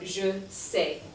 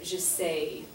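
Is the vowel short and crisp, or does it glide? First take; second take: crisp; glides. First: The vowel is short and crisp, French-style. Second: The vowel glides into a y sound, English-style.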